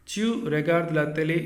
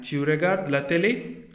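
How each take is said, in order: First: "télé" left unraised, as a statement; even statement ending on an unraised "télé"; statement intonation. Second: "télé" raised sharply at the end; rising question intonation. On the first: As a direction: say it as a fact, no lift on "télé". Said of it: "is a sentence". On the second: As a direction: ask it with a clear lift on "télé". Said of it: "interrogative sentence". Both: Shown as a demonstration.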